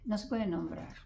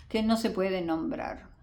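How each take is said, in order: First: Softly echoing her own point; quiet echo. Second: Said in the usual way. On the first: Shown as a demonstration. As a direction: repeat "no se puede nombrar" much softer, to yourself. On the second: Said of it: "Interesante, no se puede nombrar".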